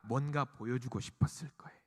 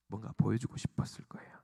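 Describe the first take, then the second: First: Said in the usual way. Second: Low, much softer near-whisper; hushed repeat. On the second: Real, not acted. Preacher repeating the disciples' secret wish, hushed. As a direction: drop to a confiding whisper.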